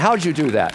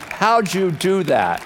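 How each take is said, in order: First: Amazed. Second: High, drawn-out astonished question; slow right down, stressing each word in disbelief; emphatic amazement. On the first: Husband asks wife about the escaped ticket, amazed. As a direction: ask it in eager disbelief. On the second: Husband presses wife for her secret, slow emphatic amazement. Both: Retold or imitated.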